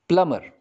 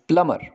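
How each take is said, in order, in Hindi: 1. m के बाद b ध्वनि साइलेंट है। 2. m के बाद b ध्वनि साइलेंट है।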